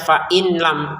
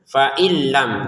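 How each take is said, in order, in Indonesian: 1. Bunyi n dilafalkan dengan jelas sebelum l. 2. Bunyi n menyatu sepenuhnya dengan l. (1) "jangan dibaca fa'in lam. Kalau in lam itu kan jelas" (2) "kita masukin nunnya ke lam ya tanpa dengungan"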